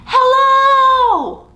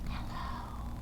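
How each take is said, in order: First: It is said very loudly. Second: It is said very quietly.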